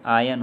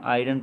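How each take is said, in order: First: आयन said with a silent r, like eye-un; correct silent-r iron. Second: आयरन said with the r sounded, like eye-ron; wrong r-sounding iron. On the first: Teacher giving students the right form, silent r. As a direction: say आयन, dropping the r completely. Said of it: "ये आयन होगा". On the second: Teacher showing students the common mistake, r pronounced. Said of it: "जो कि सही नहीं है". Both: Shown as a demonstration.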